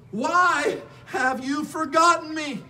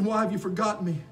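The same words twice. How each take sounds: First: High, slow anguished cry to God. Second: Said in the usual way. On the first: Acted. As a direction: cry it out, stretching the words. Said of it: "and he's crying out". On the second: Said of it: "He's saying".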